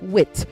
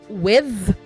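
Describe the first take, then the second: First: The word ends with a hard 't' sound. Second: The word ends with a soft 'th' sound. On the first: It names intelligence or intellect. The speaker calls it wrong. "Wit means intelligence" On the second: It is the preposition. The speaker calls it right. "say with, when you mean preposition"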